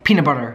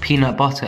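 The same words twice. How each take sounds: First: It is said in an American accent. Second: It is said in a non-American accent. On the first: "they're like" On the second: "We're just like"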